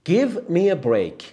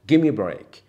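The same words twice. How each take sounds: First: Each word is said fully and separately. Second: The words blur together into 'gimme'.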